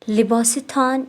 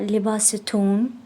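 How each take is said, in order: First: The ending is said with an 'aan' vowel. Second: The ending is said with an 'oon' vowel.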